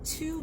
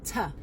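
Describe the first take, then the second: First: "to" with full OO, "too"; strong form. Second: "to" reduced to "tuh"; weak form. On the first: Teacher shows the form to avoid, full to. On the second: Teacher shows weak form, reduced to. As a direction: shrink to into a short tuh. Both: Shown as a demonstration. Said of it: "ça va pas être to".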